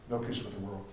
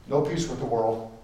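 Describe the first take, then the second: First: Much lower, much softer repeat of "No peace with the world"; hushed echo. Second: Said in the usual way. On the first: Real, not acted. Preacher echoing the line to the congregation, low and hushed. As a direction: drop to a near-murmur for the repeat.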